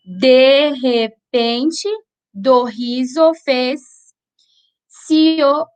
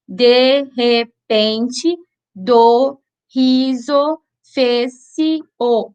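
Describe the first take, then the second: First: De repente do riso fez-se o, slowly, with se and o run together; joined vowels. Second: De repente do riso fez-se o, very slow, each syllable apart. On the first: Teacher demonstrating poetic scansion to students, slow with joined vowels. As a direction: measure out the verse, gliding fez-se o into fez-sio. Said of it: "Presta atenção bem na pronúncia". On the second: Teacher splitting a verse for students, syllable by syllable. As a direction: split fez-se o into separate beats, fez, se, o. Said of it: "separação silábica gramatical". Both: Shown as a demonstration.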